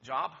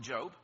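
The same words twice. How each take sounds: First: Job said to rhyme with "rob"; joking mispronunciation. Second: Said in the usual way. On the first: Shown as a demonstration. Preacher joking about needing employment, Job said with a short vowel. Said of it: "if you need one". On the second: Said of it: "Job, if you need one".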